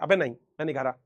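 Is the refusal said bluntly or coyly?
blunt. The refusal is said bluntly and plainly.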